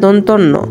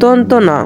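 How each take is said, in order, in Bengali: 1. এটি একসঙ্গে একটি শব্দের মতো বলা হয়। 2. এটি দুটি আলাদা অংশে ভাগ করে বলা হয়। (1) "অনেকে আমাদের যে উচ্চারণটা শেখে শিক্ষার্থীরা দন্তন্য" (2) "এখানে সঠিক উচ্চারণটা ওদের হবে দন্ত ন"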